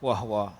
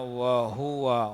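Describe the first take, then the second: First: The h has no vowel, giving two syllables. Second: The h carries a u vowel, giving three syllables. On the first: The speaker calls it wrong. "Dia baca wahwa, wahwa. Macam nak sukun ha" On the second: The speaker calls it right. "Jadi yang betulnya wa huwa, hu tu nak kena bagi bunyi"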